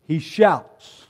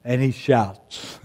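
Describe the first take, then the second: First: Loud, high shout of the word. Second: Said in the usual way. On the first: Shown as a demonstration. Preacher demonstrating the shout to the congregation, loud. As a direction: belt it out like a shout.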